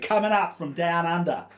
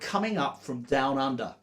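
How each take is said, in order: First: It is said in an Australian accent. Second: It is said in the speaker's usual accent.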